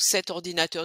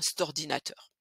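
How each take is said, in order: First: Cet is said fully, with its vowel. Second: Cet shrinks to a quick 'st' sound.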